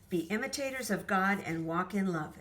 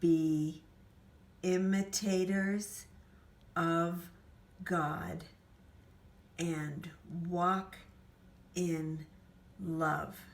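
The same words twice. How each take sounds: First: It is spoken very quickly. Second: It is spoken very slowly. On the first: "that was so fast I almost couldn't keep up" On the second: "let's go really, really slowly"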